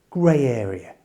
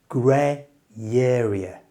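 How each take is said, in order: First: The phrase is said at normal speed. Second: The phrase is said slowly. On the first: "And at normal speed" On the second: "So slowly it sounds like this"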